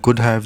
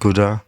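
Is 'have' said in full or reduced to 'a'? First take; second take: full; reduced. First: The word 'have' is said in full. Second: The word 'have' shrinks to a weak 'a'.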